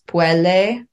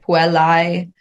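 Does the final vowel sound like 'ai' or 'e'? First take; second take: e; ai. First: The ending is pronounced as a plain 'e'. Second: The ending is pronounced as the diphthong 'ai'. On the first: This is the ecclesiastical pronunciation. "becomes puele" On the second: This is the classical pronunciation. "the AE, which is like puelai"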